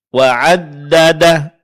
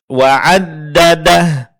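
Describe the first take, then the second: Both takes have the same delivery.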